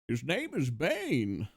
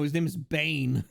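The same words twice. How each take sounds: First: Dramatic reveal. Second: Said in the usual way. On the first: Acted. Dramatic reveal of dog name. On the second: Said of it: "His name is Nano".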